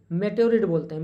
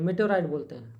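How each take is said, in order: First: मेटेओरिड said with a short "रिड" ending, a bit louder; first pronunciation. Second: मेटेओराइड said with a long "राइड" ending, falling; corrected pronunciation. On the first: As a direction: say मेटेओरिड as "मे-टे-ओ-रिड" before correcting it. (मेटेओरिड को "रिड" के साथ बोलिए) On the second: (मेटेओराइड को "राइड" के साथ सुधारकर बोलिए) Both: Shown as a demonstration.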